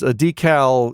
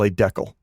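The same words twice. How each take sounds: First: Decal is said the speaker's usual, non-Canadian way. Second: Decal is said the way Canadians say it.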